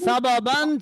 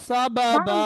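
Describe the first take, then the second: First: The word ends with an 'an' sound. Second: The word ends with a long 'a' sound. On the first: The reader continues without stopping. "ছিল" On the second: The reader stops on this word. "থামার জন্য"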